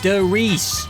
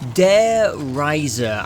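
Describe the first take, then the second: First: The stressed vowel sounds like 'ee'. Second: The stressed vowel sounds like 'eye'. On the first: The speaker calls it right. "It's Der Riese" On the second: The speaker calls it wrong. "I got the E and the I the wrong fucking way round"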